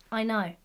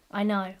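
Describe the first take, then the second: No difference in how they are said.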